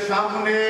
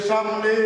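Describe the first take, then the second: Both takes have the same delivery.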